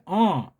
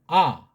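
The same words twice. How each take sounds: First: The vowel is made with a nasal sound. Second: The vowel is plain, without nasal sound. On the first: "콧소리 나는데 아" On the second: "그냥 소리 안 나는 이응은 아"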